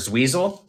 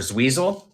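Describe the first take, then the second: First: The stressed vowel sounds like 'ee'. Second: The stressed vowel sounds like 'ee'.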